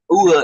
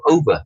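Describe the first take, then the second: First: "over" squashed to one syllable, "oor", said louder; o'er pronunciation. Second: Said in the usual way. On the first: Shown as a demonstration. Teaching Shakespeare's slangy "over" as "oor". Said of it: "So by saying that "over" instead of "over". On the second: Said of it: "instead of".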